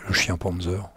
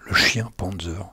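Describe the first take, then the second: No difference in how they are said.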